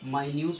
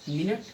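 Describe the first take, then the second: First: The word begins with a long 'my' sound. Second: The word begins with a short 'min' sound. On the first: Something very tiny. "माइन्यूट means क्या होता है सूक्ष्म" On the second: A unit of time. "मिनट means मिनट"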